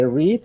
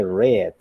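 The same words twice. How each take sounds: First: "read" with a long ee, like "reed"; present-tense pronunciation. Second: "read" with a short e, like "red"; past-tense pronunciation. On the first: Teacher showing students the present form, "read" pronounced "reed". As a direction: say "read" to rhyme with "need". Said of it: "así como está ahí, se lee read". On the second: Teacher showing students the past form, "read" pronounced "red". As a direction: say "read" to rhyme with "bed". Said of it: "cuando está en pasado se lee read". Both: Shown as a demonstration.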